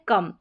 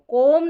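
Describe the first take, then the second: First: The vowel sounds like 'uh'. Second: The vowel sounds like 'oh'. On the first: The speaker calls it right. "हम पढ़ रहे हैं कम" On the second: The speaker calls it wrong. "अब इसको कोम नहीं पढ़ रहे हैं"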